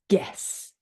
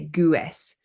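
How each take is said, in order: First: The G goes straight into the vowel. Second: A W-like U sound follows the G. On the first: The speaker calls it right. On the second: The speaker calls it wrong.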